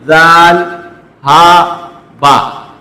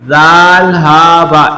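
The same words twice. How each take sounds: First: Each letter name is read separately with pauses. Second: The letter names run together without pauses. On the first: The speaker calls it wrong. "इस तरह नहीं करेंगे ... ये गलत है" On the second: The speaker calls it right. "उसका तलफ़ुज़ भी आप इस तरह करेंगे"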